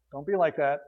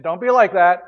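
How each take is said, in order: First: Softer, lower repeat of "Don't be like that."; soft echo. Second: Louder, emphatic "Don't be like that."; firm warning. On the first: Paul repeating his warning to the Philippians, gently and softly. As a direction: let "Don't be like that." drop to a quiet plea. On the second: Paul warning the Philippians not to grumble, firmly. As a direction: say "Don't be like that." as a stern command. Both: Acted.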